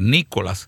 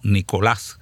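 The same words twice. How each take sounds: First: The stress falls on the first syllable. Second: The stress falls on the last syllable. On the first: The name is given an English-style form. The speaker calls it wrong. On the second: The name is kept in its proud Spanish form. The speaker calls it right.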